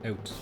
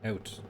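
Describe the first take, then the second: The two takes are said the same way.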